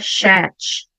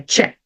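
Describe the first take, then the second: First: The word begins without a 't' sound. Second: The word begins with a 'tch' sound. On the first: The speaker calls it wrong. "não é chat" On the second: The speaker calls it right. "Como se eu tivesse um T na frente"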